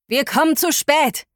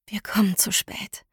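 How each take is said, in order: First: "Wir kommen zu spät" cried out high and urgent; despairing radio cry. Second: "Wir kommen zu spät" whispered, breathless and soft; whispered despair. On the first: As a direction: call "zu spät" in despair, voice raised. Heukür on radio, whales in danger. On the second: Narrator's despairing thought. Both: Acted.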